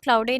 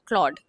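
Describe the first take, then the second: First: It has an 'ow' vowel and an extra final syllable. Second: It is one syllable with an 'aw' vowel. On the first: The speaker calls it wrong. "क्लाउडे नहीं pronounce करते हैं" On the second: The speaker calls it right. "या क्लॉड"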